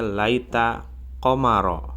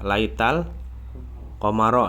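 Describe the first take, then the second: First: The two words join with no L sound. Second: An L sound links the two words. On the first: The speaker calls it wrong. "tadi bacanya laita komaro. Jadi nggak ada alif lamnya" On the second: The speaker calls it right. "Laita itu harusnya laital"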